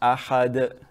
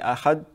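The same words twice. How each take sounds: First: The final d is released with an echo. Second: The final d stops abruptly with no echo. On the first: The speaker calls it right. "there should be sort of like an echo at the end" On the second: The speaker calls it wrong. "Don't say ahad and stop"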